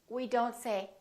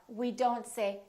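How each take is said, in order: No difference in how they are said.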